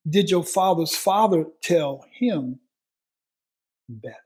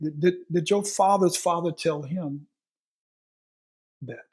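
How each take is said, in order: First: Did hit loud and slowed; slow it down and hammer each word; slower, louder repeat. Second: Fathers stressed, pitch falling to the end; stress on father's father. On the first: Preacher repeating the question, slower and louder. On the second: Preacher pressing the congregation, stress on fathers. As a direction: lean on fathers. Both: Shown as a demonstration. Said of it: "let's go further".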